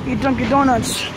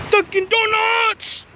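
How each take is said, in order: First: Said in the usual way. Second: High, slow, drawn-out shout; excited exclaim. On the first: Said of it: "Dunkin' Donuts!". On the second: Acted. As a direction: stretch it out up high. Repeats the words, drawn out and high.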